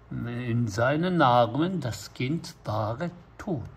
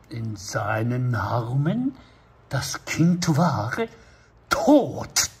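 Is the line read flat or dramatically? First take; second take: flat; dramatically. First: It is read in a flat, neutral announcer tone. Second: It is read with heavy dramatic emotion. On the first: It is plain narration reporting what happened. The speaker calls it right. "ナレーションは最後も" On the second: The reader acts out the grief as if inside the scene. The speaker calls it wrong. "読んじゃう人がいるわけですよ、死んだってね"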